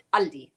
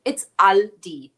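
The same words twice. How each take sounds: First: "Aldi" said the American way, "AL-dee" with a flat a as in cat; "Aldi" with the English flat a, AL-dee. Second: "Aldi" said the German way, "AHL-dee" with an open ah. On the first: Answering the chat on how to say it, American Aldi. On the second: Reading out a viewer's word to the chat, saying Aldi the German way. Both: Shown as a demonstration. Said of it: "I wonder how you pronounce it".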